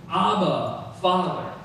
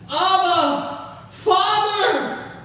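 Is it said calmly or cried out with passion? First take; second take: calmly; cried out. First: It is read calmly, without strong feeling. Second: It is cried out loudly with deep feeling.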